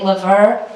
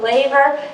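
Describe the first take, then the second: First: The stress is on the last syllable. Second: The stress is on the first syllable. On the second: "I've always called it the laver. ... we put our emphasis on the first syllable"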